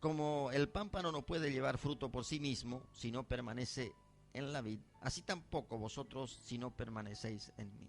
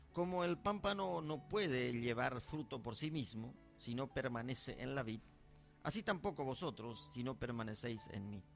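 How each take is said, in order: The two takes are said the same way.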